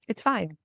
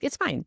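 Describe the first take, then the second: First: It is said in a sincere, calm tone. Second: It is said in a flippant, dismissive tone.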